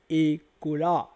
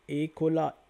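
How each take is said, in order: First: "Ekola" slowly stretched out by syllable; slow pronunciation demo. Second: Said in the usual way. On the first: Shown as a demonstration. Teacher shows how the word is said, "Ekola" slowly sounded out. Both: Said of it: "regardez comment ça se dit".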